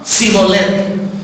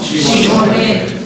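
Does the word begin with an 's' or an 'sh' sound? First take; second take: s; sh. First: The word begins with a plain 's' sound. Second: The word begins with an 'sh' sound. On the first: The speaker is from the rival tribe. The speaker calls it wrong. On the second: The speaker is not from the rival tribe. The speaker calls it right.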